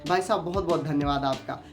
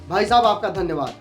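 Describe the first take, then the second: First: It is said warmly, with a smile. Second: It is said in an angry tone.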